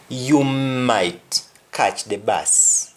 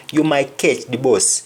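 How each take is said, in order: First: Said in the usual way. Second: Jamaican Patois, "bus" rounded to "boss". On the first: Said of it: "meaning you might catch the bus". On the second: Shown as a demonstration. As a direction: give it the Jamaican "ketch di boss" sound. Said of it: "in Jamaican, when somebody says bus".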